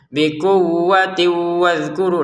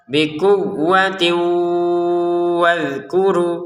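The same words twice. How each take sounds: First: The n merges into w without nasal hum. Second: The n merges into w with a nasal hum. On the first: The speaker calls it wrong. "Kalau dimasukin tanpa dengungan, ya kurang sempurna" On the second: The speaker calls it right. "kita masukkan disertai dengungan"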